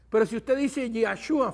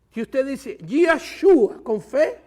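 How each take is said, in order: First: Said in the usual way. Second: Lento y fuerte, con fe bien marcado; énfasis en con fe. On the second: Shown as a demonstration. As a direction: recalca con fe, despacio y con fuerza. (si usted dice Yahshua con fe, lento y enfático) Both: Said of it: "tiene que salir de un corazón con fe".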